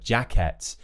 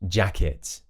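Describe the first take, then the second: First: The ending is pronounced with an 'et' sound. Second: The ending is pronounced with an 'it' sound. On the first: The speaker calls it wrong. "where they pronounce it as it's spelt with an et" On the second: The speaker calls it right. "in British English, it's going to be it"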